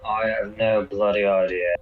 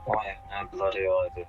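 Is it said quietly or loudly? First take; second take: loudly; quietly. First: It is said loudly. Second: It is said quietly.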